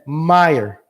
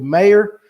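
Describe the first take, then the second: First: It is said the Northern way, like Meyer. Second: It is said the Southern way.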